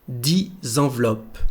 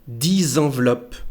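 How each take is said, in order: Both takes have the same delivery.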